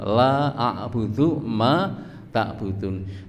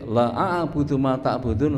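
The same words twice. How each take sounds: First: The vowel in 'la' is drawn out long. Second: The vowel in 'la' is cut short. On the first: I do not worship what you worship. The speaker calls it right. "Niku nek lane dawa" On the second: Truly I worship what you worship. The speaker calls it wrong. "ketika lanya dibaca pendek"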